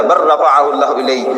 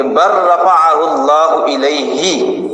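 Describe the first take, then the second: First: بر رفعہ اللہ الیہ read again slowly with the stressed بر; a second careful recitation of بر رفعہ اللہ الیہ; correct recitation repeated. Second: بر رفعہ اللہ الیہ recited slowly with the doubled r held; slow, careful Arabic recitation of بر رفعہ اللہ الیہ; correct Quranic recitation. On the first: Repeating the correct reading for the audience, slow and deliberate. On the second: Teaching the debate audience the correct reading, slow careful recitation. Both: Shown as a demonstration. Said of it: "یہ قرآن مجید کا اصل تلفظ ہے".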